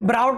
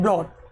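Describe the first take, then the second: First: The vowel glides like 'ow' in 'out'. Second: The vowel is a plain 'aw' sound. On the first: The speaker calls it wrong. "ब्राउट नहीं बोलना इसको" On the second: The speaker calls it right. "Bring की second form होती है ब्रॉट"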